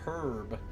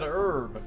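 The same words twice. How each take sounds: First: The word begins with an h sound. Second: The word begins without an h sound. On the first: Others claim this is how it should be said. "saying that it's supposed to be said herb" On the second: This is the way taught as correct and refined. "Silent H. See, that's how I've always said it"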